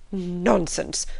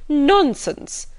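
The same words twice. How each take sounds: First: Said in the usual way. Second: "Nonsense!" pitched high and loud, then falling; "Nonsense!" as an emphatic, loud dismissal; emphatic exclamation. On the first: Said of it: "Missus Bennet said only". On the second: A narrator's reading. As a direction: punch "Nonsense!" higher on the first syllable. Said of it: "that emphatic exclamation".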